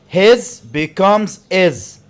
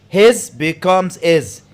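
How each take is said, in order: No difference in how they are said.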